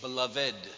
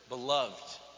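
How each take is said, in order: First: The word is said the old formal way. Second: The word is said the everyday modern way.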